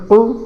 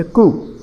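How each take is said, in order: First: "কু" as Arabic qu, from inside the throat; throaty "কু". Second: Said in the usual way. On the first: Shown as a demonstration. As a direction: push the k of "কু" far back to a q. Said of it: "এটা গলার ভেতর হয়ে". (গলার ভেতর থেকে "কু") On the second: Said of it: "আর এটা হচ্ছে কু".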